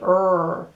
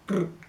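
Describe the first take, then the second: First: The R is made at the back of the mouth. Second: The R is made where a D is made. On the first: "they say R right at the back of their mouth" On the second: "En español, in castellano, they say R. The same place that you have the letter D"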